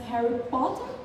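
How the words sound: It is said with British vowels.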